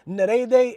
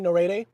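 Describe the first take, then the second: First: The name is pronounced in an Italian way. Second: The name is pronounced in an English way. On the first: "is how they pronounce it" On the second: "with a Western tongue, you can say Nerede"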